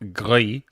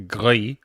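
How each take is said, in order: First: It is said like the French word gris. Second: It is said like the French word gris.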